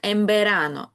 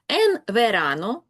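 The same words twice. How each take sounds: First: The nasal before verano sounds like m. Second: The nasal before verano sounds like n. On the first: "звучить як «en verano»" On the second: "«en verano» влітку"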